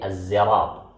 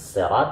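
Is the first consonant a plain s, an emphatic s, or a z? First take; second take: z; plain s. First: The word begins with a z sound. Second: The word begins with a plain s sound. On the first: "atau dengan zai" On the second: "dengan sin"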